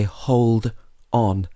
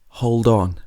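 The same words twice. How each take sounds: First: The two words are said separately. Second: The final d runs into the next word. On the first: The speaker calls it wrong. "we don't normally say hold on" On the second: The speaker calls it right. "we say hold on. So it sounds like there's actually a D O N"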